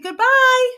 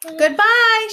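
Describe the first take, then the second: First: High, loud farewell call; called goodbye. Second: High, loud farewell shout; the whole crowd calling up. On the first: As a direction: shout it down from the sky. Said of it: "called Oz from the basket". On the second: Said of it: "shouted everyone". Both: Acted.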